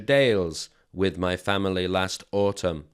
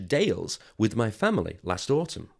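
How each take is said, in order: First: The voice is flat and monotonous. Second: The voice is lively and varied. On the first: The speaker calls it wrong. "Number one was much more boring" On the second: The speaker calls it right. "Number two was much more natural"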